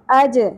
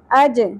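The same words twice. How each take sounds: First: The final j is released with a bounce. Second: The same.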